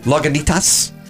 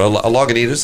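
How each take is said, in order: First: The ending "itas" is said hard. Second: The ending "itas" is said softly. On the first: This imitates how someone else says it. "They like do the hard itas" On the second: This is the speaker's own ordinary way of saying it. "I'll order a Lagunitas"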